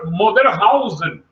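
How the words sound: It is said with Japanese-style sounds and vowels.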